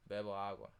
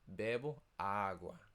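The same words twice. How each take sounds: First: The accent sounds plain and natural. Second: The accent is overdone and exaggerated.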